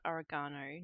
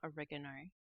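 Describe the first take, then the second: First: It is said with an Australian pronunciation. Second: It is said with an American pronunciation. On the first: "I still call it"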